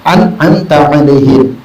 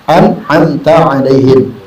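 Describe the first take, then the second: Both takes have the same delivery.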